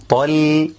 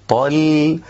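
Both takes have the same delivery.

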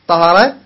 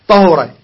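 First: The h is followed by an 'a' vowel. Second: The h is followed by a 'u' vowel. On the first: "بفتح الهاء" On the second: "وضمها"

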